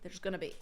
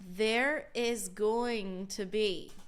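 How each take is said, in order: First: The words are contracted and run together. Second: Every word is said out in full. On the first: "What I say is there's going to be" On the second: "that's not what I say"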